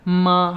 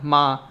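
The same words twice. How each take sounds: First: The syllable has a high, level pitch. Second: The syllable is short, light and unstressed. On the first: "first tone" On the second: "uses the neutral no tone"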